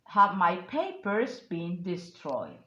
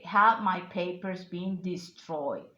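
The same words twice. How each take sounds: First: The word papers carries the main stress. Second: The word destroyed carries the main stress. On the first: It was papers, not documents, that were destroyed. "Emphasize the, the word papers" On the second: The question is whether destruction happened to them. "it emphasized the word destroyed"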